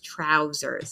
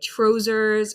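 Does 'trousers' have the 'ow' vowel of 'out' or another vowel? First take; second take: ow vowel; another vowel. First: The first vowel is the 'ow' of 'out'. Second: The first vowel is not the 'ow' of 'out'. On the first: The speaker calls it right. "It's trousers" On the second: The speaker calls it wrong. "that's not the same sound"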